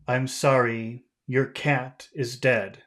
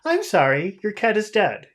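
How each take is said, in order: First: It is said in a grave, serious tone. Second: It is said in a light, unserious tone.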